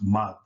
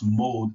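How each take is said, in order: First: The vowel is a short o, like nod. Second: The vowel is a long oh, like gold. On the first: The speaker calls it right. "it's pronounced mod" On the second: The speaker calls it wrong. "that's not pronounced mold"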